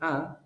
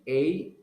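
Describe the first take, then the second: First: The word is said with a weak, reduced vowel. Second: The word is said with a full, stressed vowel. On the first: It is the ordinary form in normal conversation. "is the common pronunciation" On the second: It emphasizes the word strongly. "is because you're going to emphasize a lot"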